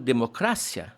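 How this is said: It has the Spanish stress placement.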